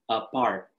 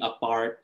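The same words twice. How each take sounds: First: "apart" parted into "a" and "part"; split as two words. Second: Said in the usual way. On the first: Shown as a demonstration. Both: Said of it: "It's also a play on words".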